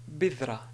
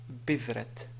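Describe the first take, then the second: First: The word ends on a vowel with no t. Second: The word ends with an audible t sound. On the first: The speaker calls it right. "si on veut s'arrêter sur la ta, on va dire bidra" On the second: The speaker calls it wrong. "et non pas bidrat"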